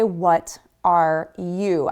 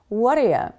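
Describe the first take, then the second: First: Each word is said separately and fully. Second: The words run together with a reduced ending. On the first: The speaker calls it wrong. "Notice I don't say what are you" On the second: The speaker calls it right. "I say what are ya"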